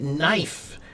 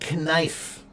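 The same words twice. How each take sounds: First: The word starts with an n sound, no k. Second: The word starts with a k sound before n. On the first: This is how the word is said today. "we pronounce it knife" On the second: This is how the word was said long ago. "the original pronunciation, they did pr- pronounce the K"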